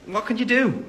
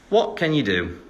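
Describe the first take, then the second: First: Higher mock-helpless "what can you do?"; mock helpless shrug. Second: Said in the usual way. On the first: Real, not acted. Shrugging off staying out too long, high mock resignation.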